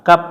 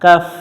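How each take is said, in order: First: The word ends with a p sound. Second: The word ends with an f sound. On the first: The speaker calls it wrong. "আমরা অনেকজন এটা ভুল করে উচ্চারণ করি কাপ, কাপ না" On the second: The speaker calls it right.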